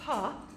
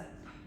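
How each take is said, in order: First: The p sound is followed by a vowel. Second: The p sound is said without a vowel. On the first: The speaker calls it wrong. "as we learn" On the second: The speaker calls it right. "is a p"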